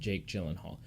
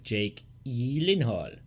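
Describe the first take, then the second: First: The name is said with English pronunciation. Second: The name is said with Swedish pronunciation. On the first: This is how it is commonly said in Hollywood. "in Hollywood it's" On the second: This is the name's original Swedish pronunciation. "it legitimately is like"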